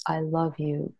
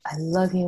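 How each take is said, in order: First: Said in the usual way. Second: Tender I love you to the body; loving affirmation. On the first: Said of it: "that's the Ho'oponopono prayer". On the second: Shown as a demonstration. Speaking lovingly to her knee during the prayer, tender. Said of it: "allowing me to speak to you now".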